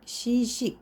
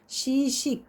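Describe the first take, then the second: Both takes have the same delivery.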